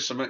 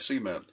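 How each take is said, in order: First: It is said in a plain standard accent. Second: It is said in a rural hillbilly accent. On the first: "You don't say cement" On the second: "You say it like a Beverly Hillbilly"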